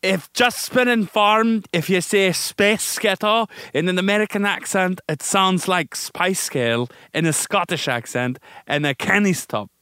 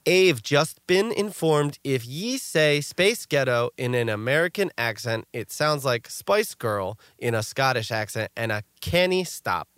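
First: Hammed-up Scottish accent, pitched high. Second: Slow reading of Scottish spellings in plain English; Scottish slang read literally, slowly; read as spelled. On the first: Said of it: "then you say it in, um, Scottish". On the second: Shown as a demonstration. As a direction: sound out "ye" and "canny" as written, in plain English. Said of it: "say it how it's spelled in English".

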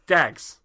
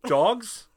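First: Loud Irish Traveller "dags", falling; Brad Pitt in Snatch. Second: DOGS in the ordinary vowel, high and rising; puzzled query. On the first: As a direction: answer firmly with Irish-accented "dags". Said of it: "fully commits to being unintelligible". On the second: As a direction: loudly query Dogs as a correction. Acted listener queries the word. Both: Retold or imitated.

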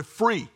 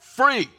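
First: Said in the usual way. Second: Free said higher and louder, punched; stress on Free. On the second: Shown as a demonstration. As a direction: land hard on Free. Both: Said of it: "you hear that?".

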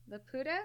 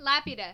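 First: "Laputa" said as la-POO-ta, questioning; tentative pronunciation. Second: "Lapida" said as LAP-i-da, first syllable stressed; corrected pronunciation. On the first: Host unsure of the film's title, tentative "Laputa". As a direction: try "Laputa" with a long oo, unsure. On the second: Host settles on how they say it, firm "Lapida". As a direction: land firmly on the LAP of "Lapida". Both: Shown as a demonstration. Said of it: "How did they say it again".

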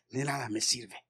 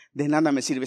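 First: Hushed. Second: Said in the usual way. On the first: Acted. Pastor hushing the refrain to the church, hushed. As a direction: drop to a hushed, much softer refrain. Refrain dropped to near whisper.

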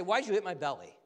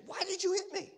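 First: Said in the usual way. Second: Very high, squeaky-pitched protest; acted indignant protest. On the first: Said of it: "I don't say". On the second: Preacher acting out being hit, high mock-outraged protest. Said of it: "I'd say".

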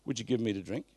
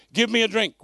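First: Gentle, courteous asking; polite, respectful plea; polite request. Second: Loud, commanding request for a drink; curt, rude-sounding demand; blunt demand. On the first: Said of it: "but Jesus wouldn't have been rude". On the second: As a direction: bark it out like an order, much higher and louder. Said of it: "It doesn't read as polite in the King James". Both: Shown as a demonstration.

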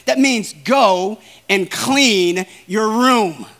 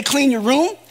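First: "go and clean your room" said slowly, every word weighted; emphatic. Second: Said in the usual way. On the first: Shown as a demonstration. Preacher to congregation, slow firm stress on each word. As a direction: spell it out slowly and firmly. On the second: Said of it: "that doesn't mean discuss it".

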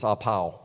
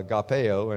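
First: "apao" said as ah-POW; software's pronunciation. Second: "agapeo" said with a PAY-oh ending; usual pronunciation. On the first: Preacher quotes the software's Greek, "apao" as ah-POW. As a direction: end "apao" on a single pow sound. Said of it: "it says that it's apao". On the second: Preacher gives his habitual Greek pronunciation, "agapeo" ending PAY-oh. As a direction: stress "pe" in "agapeo", then a separate oh. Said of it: "I always called it". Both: Shown as a demonstration.

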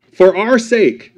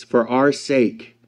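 First: "our" drawn out slowly; stress on our. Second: Said in the usual way. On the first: Shown as a demonstration. Preacher rereading the verse to the congregation, slow stress on "our". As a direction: lean on "our" in "For our sake". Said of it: "rereads verse with emphasis". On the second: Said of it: "first reading of the verse".

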